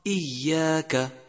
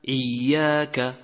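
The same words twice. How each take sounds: First: إياك with a clear hamza, not ain; correct hamza. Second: إياك with its hamza pushed towards ain. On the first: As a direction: open إياك with a light glottal stop. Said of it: "والصواب". (نطق إياك بهمزة صحيحة) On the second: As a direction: start إياك from the throat like ain, slowly. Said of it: "قريبة من العين". (همزة إياك قريبة من العين خطأ) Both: Shown as a demonstration.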